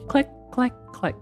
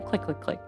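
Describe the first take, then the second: First: The clicks are said slowly, spaced apart. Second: The clicks are said quickly, close together. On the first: The speaker calls it right. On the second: The speaker calls it wrong.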